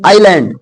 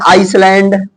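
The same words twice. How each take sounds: First: "आइलैंड" said as eye-land; silent s. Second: "आइसलैंड" said as ice-land; mistaken pronunciation. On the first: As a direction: drop the s entirely in "आइलैंड". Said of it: "एस silent रहेगा". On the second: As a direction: sound the s in "आइसलैंड". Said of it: "आइसलैंड बोलते". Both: Shown as a demonstration.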